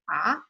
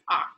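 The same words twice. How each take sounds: First: The pitch rises like a question. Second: The pitch stays low. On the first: "Second one is like what" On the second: "it's a really low tone"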